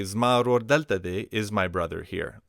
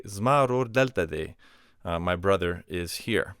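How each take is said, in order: First: "Zmaror delta de" rising as a question; question intonation. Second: "Zmaror delta de" falling as a statement; statement intonation. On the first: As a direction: ask "Zmaror delta de" with a lift on "delta". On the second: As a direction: answer "Zmaror delta de" as fact, stressing "Zmaror". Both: Shown as a demonstration. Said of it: "All you do is change the intonation".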